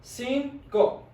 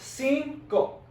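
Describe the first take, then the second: First: The first sound is a hissing S. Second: The same.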